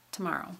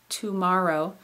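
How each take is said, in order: First: The first vowel is a quick, reduced schwa. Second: The first vowel is fully pronounced. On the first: "we say that rapidly, and the two at the beginning becomes t" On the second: "instead of saying tomorrow"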